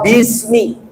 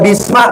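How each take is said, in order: First: The word ends in an i vowel. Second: The word ends in an a vowel. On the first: The speaker calls it right. "dibacanya kasroh, maka bismi" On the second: The speaker calls it wrong. "Nggak boleh dibaca bisma"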